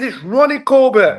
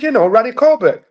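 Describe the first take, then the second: First: RONNIE with a round O, high and slow; correcting pronunciation. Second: High, louder Dominican-accented imitation; father's Dominican accent. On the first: Retold or imitated. Son corrects his dad's accent, high insistent RONNIE with a round O. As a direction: correct him, stretching RONNIE with a clear O. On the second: Dominican dad names the comedian to his son, imitated accent. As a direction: imitate a Dominican dad saying RANNY for Ronnie. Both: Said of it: "Yeah, it's the accent".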